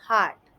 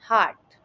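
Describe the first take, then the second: The two takes are said the same way.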